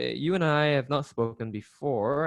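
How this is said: It is said hesitantly and unconfidently, with fillers. The speaker calls it wrong. "if you sound just unconfident"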